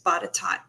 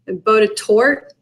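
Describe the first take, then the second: First: The name is said unlike its written spelling. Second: The name is said the way it is spelled. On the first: The speaker calls it right. "But it's Botetourt" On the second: The speaker calls it wrong. "it looks like it should be pronounced Botetourt"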